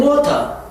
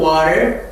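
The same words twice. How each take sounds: First: British-style water with a crisp t and no final r; non-rhotic British pronunciation; British accent. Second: American accent. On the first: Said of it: "영국에는 water". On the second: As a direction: say water the American way, r-coloured. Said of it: "미국에서는 water". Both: Shown as a demonstration.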